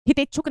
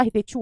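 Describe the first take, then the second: First: हितेच्छुक closed with an extra "k"; wrong form. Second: हितेच्छु ending on "chhu", no final "k"; correct form. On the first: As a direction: end हितेच्छुक on a hard "k". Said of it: "हितेच्छुक नहीं होता". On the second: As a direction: end हितेच्छु on an open "u". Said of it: "हितेच्छु होता है". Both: Shown as a demonstration.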